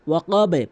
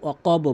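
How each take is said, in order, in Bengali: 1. শেষের b নিচের দিকে প্রতিধ্বনি তুলে লাফায়। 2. শেষের b ছোট করে কেটে বলা হয়, কোনো প্রতিধ্বনি ছাড়া। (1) "এখানে বা নিচের দিকে সাউন্ড করতে হবে" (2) "অধিকাংশ লোক অকব বলে"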